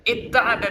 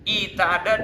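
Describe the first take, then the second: First: The t is doubled after the first vowel. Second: A long i comes before a single t. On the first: "dengan idgham" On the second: "dengan mencocoki harokat sebelumnya"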